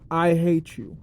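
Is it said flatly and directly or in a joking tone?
direct. It is said flatly and directly.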